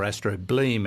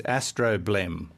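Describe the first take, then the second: First: Astrobleem ending in a long "bleem"; long-vowel ending. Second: Astroblem ending in a short "blem"; short-vowel ending. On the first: Host reading it as written, astrobleem with long ee. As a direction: say astrobleem with a long ee in the last syllable. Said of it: "as it is written". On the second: Host introducing the word astroblem, short "blem" ending. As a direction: say astroblem with a short e in the last syllable. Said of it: "we think it's a blem". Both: Shown as a demonstration.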